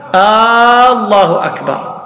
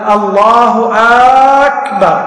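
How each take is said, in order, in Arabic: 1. الحركة الأولى في الكلمة الأولى تُمَدّ. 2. الحركة الأولى في الكلمة الثانية تُمَدّ. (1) "إذا مد همزة الله تغير المعنى، صار استفهام" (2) "أو همزة أكبر ... ما يصح، لأنه صار همزة استفهام"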